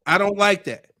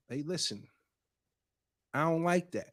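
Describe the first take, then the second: First: Raised, firm retold objection. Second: Soft, measured retold objection; calm objection. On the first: Man retelling a boyfriend's objection to his girlfriend, firmly. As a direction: quote him putting his foot down. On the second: Man retelling how the boyfriend told her, calm and quiet. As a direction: quote him gently setting a boundary, quietly. Quoting boyfriend calmly setting a boundary.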